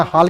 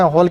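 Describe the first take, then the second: First: हाल with a plain open "aa" vowel; long open aa. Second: हॉल with a full rounded "o" vowel. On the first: Teacher showing a vowel to avoid, हाल with open "aa". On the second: Teacher showing the other vowel to avoid, हॉल with rounded "o". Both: Shown as a demonstration. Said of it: "दोनों के बीच की ध्वनि".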